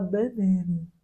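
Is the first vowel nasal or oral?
nasal. The vowels are nasalized, Brazilian style.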